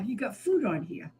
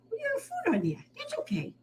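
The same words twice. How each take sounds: First: Said in the usual way. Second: "We got food on here" much higher and softer. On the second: Real, not acted. Rescuer soothes the messy kitten, much higher, softer baby talk. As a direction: coo "food" softly up high.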